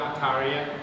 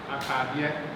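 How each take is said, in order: First: The middle consonant is an r sound. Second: The middle consonant is a d sound. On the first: This is how it is said in one region. "if you go to a place like Suhum, they will pronounce the same word like ataria" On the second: This is how it is said in another region. "in Asante, this would be switched out for the D sound"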